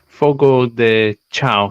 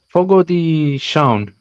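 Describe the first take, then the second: First: The last word is pronounced as it is spelled. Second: The last word has its native pronunciation. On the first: "but it reads" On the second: "is how you pronounce it"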